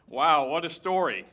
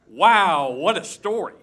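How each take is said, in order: First: It is read plainly, without extra emphasis. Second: It is read with strong, lively emphasis. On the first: The speaker calls it wrong. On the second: The speaker calls it right.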